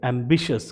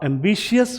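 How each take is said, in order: First: एम्बिशियस as "am-bi-shus"; right pronunciation. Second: एम्बिशियस with "shi-yas" ending; wrong pronunciation. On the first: Teacher giving students the correct form. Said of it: "इसे बोलेंगे एम्बिशियस". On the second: Teacher showing students the mistake. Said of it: "एम्बिशियस बोलना छोड़ दें". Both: Shown as a demonstration.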